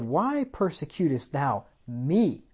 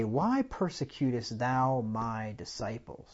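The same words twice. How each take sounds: First: "Why persecutest thou me?" slow, leaning on "me"; slow emphatic right reading. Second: Said in the usual way. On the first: Shown as a demonstration. Preacher slowly reading the right version to the church. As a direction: draw it out slowly and land on "me". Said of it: "He said". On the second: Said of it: "He didn't say".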